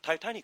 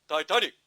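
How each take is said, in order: First: It is said plainly in an American accent. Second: It is said deep and low, British-style.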